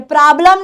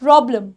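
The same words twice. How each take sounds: First: "प्रॉब्लम" as praa-blam, open aa vowels; wrong pronunciation. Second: "प्रॉब्लम" with a round o, lower; correct pronunciation. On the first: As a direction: say "प्रॉब्लम" with aa in place of o. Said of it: "नहीं". ("प्रॉब्लम" ग़लत, प्राब्लम जैसा) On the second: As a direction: model "प्रॉब्लम" as PRO-blum. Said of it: "प्रॉब्लम होता है". ("प्रॉब्लम" सही, गोल ऑ के साथ) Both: Shown as a demonstration.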